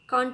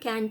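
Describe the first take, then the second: First: It is said with a British accent. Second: It is said with an American accent. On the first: "Can't is British pronunciation" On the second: "can't is American"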